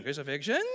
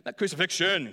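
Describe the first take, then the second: First: "Crucifixion" lower, rising at the end like a question; questioning rise. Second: Said in the usual way. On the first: Shown as a demonstration. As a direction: lift the end of "Crucifixion" as if asking, Aussie style. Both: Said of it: "is asking you a question".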